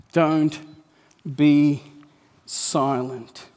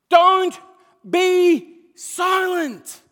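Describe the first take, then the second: First: "Don't be silent" low and firm, a pause after each word; solemn, word-by-word command. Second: "Don't be silent" high, very loud, each part stretched; shouted command. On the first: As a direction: drive home "Don't", "be", then drop on "silent". Preacher repeats command solemnly, word by word. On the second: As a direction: proclaim "Don't be silent" at full force with pauses. Preacher proclaims the command at full force. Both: Real, not acted.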